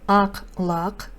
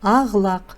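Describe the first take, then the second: First: The consonant between the words sounds like k. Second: The consonant between the words sounds like g. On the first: This is how the phrase is written. "Пишется" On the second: This is how the phrase is actually read. "читается"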